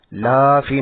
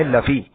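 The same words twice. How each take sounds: First: لافی with the لا drawn long; wrong stretched la. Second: لفی with a short clipped لا. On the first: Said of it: "لافی نہیں ہے". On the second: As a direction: keep the لا in لفی quick. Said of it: "لا نہیں کھنچ رہا ہے". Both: Shown as a demonstration.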